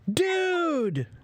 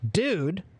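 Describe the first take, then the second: First: The word sounds surprised and delighted. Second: The word sounds puzzled and disapproving. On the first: I'm surprised to see you. "that means, I'm surprised to see you" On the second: What are you doing? "that means, what are you doing?"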